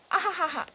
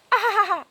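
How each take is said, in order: First: Lightly voiced mocking chat laugh. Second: Higher, louder mocking cackle; mock laugh. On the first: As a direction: read the laugh out mildly. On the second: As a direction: ham up the taunting laugh. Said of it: "Ryu says".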